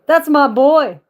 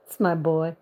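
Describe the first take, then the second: First: Loud proud shout; proud cheer. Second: Said in the usual way. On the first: Real, not acted.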